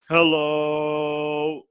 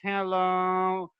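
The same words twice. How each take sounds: First: It is said with full, relaxed breath support. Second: It is said with little air, sounding strained.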